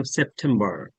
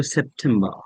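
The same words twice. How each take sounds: First: সেপ্টেম্বর ending septembar, final r clearly sounded; American style সেপ্টেম্বর, r pronounced; American pronunciation. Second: সেপ্টেম্বর ending septemba, final r dropped; British style সেপ্টেম্বর, no r at the end; British সেপ্টেম্বর, r left silent; British pronunciation. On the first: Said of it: "American". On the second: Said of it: "ব্রিটিশটা বলবে". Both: Shown as a demonstration.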